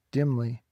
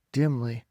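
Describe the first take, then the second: No difference in how they are said.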